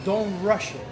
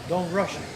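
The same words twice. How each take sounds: The two takes are said the same way.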